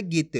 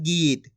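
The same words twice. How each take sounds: First: गीत said short and low. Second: गीत with a long drawn-out vowel. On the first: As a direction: keep the vowel of गीत brief. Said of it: "छोटी ई की मात्रा". (गीत में छोटी इ बोलकर) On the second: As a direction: stretch the ई of गीत. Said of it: "खींच के पढ़ा जा रहा". (गीत की ई खींचकर) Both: Shown as a demonstration.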